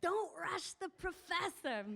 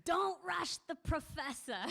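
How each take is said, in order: First: Slow, higher, grand mock dignity; old woman beaming as she plays the professor, slow and high; smiling lofty old lady. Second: Slow, higher, lofty mock dignity; amused old woman playing the lofty professor; haughty old lady. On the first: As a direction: say it with a big proud smile, slow. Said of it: "the big smile on her face as she said". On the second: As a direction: put on airs, slow and high. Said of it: "she goes".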